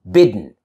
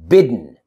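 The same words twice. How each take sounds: No difference in how they are said.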